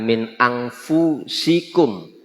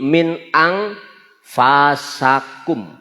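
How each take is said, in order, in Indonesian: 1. Vokal setelah f bukan 'a'. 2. Vokal setelah f adalah 'a'. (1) "bukan min anfusikum" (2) "huruf fa-nya dibaca fathah"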